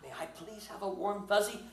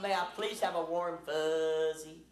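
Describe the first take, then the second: First: It is said in a neutral accent. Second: It is said in a Southern US accent.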